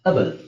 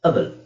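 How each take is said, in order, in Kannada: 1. ಮೊದಲ ಸ್ವರ 'uh' ತರ ಹೇಳ್ತೀವಿ. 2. ಮೊದಲ ಸ್ವರ 'uh' ತರ ಹೇಳ್ತೀವಿ.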